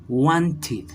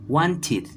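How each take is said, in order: First: The ending sounds like 'id'. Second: The ending sounds like 'id'.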